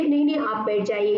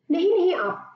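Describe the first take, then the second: First: Gentle, earnest please sit; polite insistence. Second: High pleading no, no; urging her to stay. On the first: Shown as a demonstration. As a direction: coax her to sit back down. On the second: Acted. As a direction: stop her, pitched up high. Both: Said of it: "इस अंदाज से कहती है".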